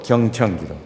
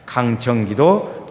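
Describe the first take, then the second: First: 경청 기도 said lower and calmer; calm listening tone. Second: 강청 기도 drawn out slowly and firmly; 강청 기도 said slowly and strongly, like a demand; pleading emphasis. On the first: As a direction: let 경청 기도 settle down, lower and calmer. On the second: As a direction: stretch 강청 기도 out like an earnest plea. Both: Shown as a demonstration. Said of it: "두 번만 해보겠습니다".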